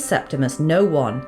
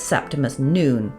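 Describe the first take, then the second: First: The last name is said as two words. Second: The last name is said as one word. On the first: The name reads as the words no one. "I read it as Septimus No One" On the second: The name is read the way it is meant. "[name] pronounced it as Septimus Noon"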